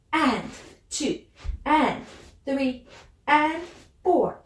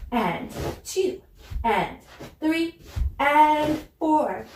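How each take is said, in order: Both takes have the same delivery.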